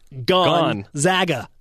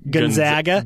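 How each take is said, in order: First: The first syllable rhymes with 'gone'. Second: The first syllable rhymes with 'gun'. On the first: The speaker calls it right. "Like gone from the Marriott Center" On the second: The speaker calls it wrong. "It's not a gun"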